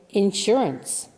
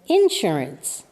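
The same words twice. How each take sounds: First: The stress is on the second syllable. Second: The stress is on the first syllable. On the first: The speaker is from the East Coast. "I'm from the East Coast of the United States, so I say insurance" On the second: The speaker is from the South. "The syllable in the beginning of the word takes the stress"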